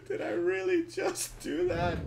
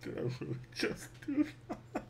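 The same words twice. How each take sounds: First: High, laughing, incredulous; laughing disbelief. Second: Unvoiced, hushed stunned question; stunned whisper at own mistake; whispered disbelief. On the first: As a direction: crack up at own blunder. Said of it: "repeated louder". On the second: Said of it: "repeats it laughing". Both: Real, not acted.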